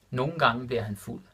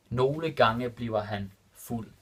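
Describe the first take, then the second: First: Said in the usual way. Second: Nogle gange bliver han fuld said slowly, word by word; careful slow repeat for students; slow and clear. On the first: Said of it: "repeated slower". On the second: Shown as a demonstration. Teacher repeating the Danish example for learners, slow and clear. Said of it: "repeated slower for learners".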